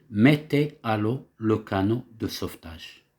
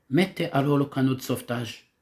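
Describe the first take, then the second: First: A mild captain's command, "mettez" leading; captain giving an order. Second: Faster, urgent command with "Mettez" hit first; brisk order. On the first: Teacher voicing a captain ordering sailors, lightly commanding. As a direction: give the order like a ship's captain, understated. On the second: Captain urging sailors to launch the lifeboat, quick and pressing. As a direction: rush the order out like a captain in an emergency. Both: Shown as a demonstration. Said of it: "c'est le capitaine qui donne un ordre".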